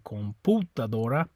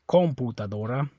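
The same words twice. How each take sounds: First: The stress is on the second syllable pu. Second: The stress is on the first syllable com. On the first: "it's not the U, or you'd say" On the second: "it's not this O, or you'd say"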